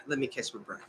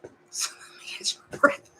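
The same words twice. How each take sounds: First: Quiet, winded, breathy words; gasping for air mid-rant; out of breath. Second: Whispered while out of breath; panting it out in a whisper; breathless whisper. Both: Real, not acted.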